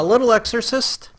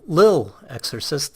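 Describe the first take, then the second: First: The first word is said in full, two syllables. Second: The first word is shortened to one syllable. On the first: The speaker calls it wrong. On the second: The speaker calls it right.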